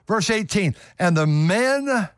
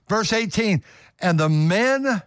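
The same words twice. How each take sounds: The two takes are said the same way.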